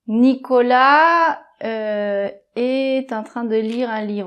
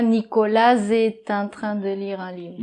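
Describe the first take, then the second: First: The S of Nicolas stays silent, no link. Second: The S of Nicolas is sounded and linked. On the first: The speaker calls it right. "par exemple" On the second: The speaker calls it wrong. "On dit pas"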